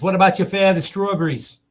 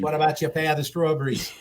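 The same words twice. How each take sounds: First: Higher, louder spoof of the ad line; a lightly voiced old-timer; mock old man in the ad. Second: Higher ad quote with laughter in it; half-laughing repeat of the line; laughing spoof. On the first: Host quoting the ad, hammed-up old-timer voice. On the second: Retold or imitated. Host repeating the ad line while still laughing. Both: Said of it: "Pepperidge Farm remembers".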